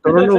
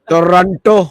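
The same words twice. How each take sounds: First: The second t is left silent. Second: The second t is clearly pronounced. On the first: This is how the locals say it. "टोरंटो टी silent रहता है" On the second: This is how the speaker chooses to say it. "मैं बोलता हूँ टोरंटो"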